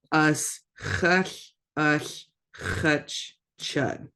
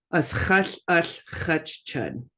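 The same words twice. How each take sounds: First: "Us chush, us chutch, chud" broken up with clear pauses between the parts; split into parts. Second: Said in the usual way. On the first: Shown as a demonstration. Teacher breaking a big word down for learners, split up. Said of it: "kinda split it a little bit". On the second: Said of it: "That's a big one".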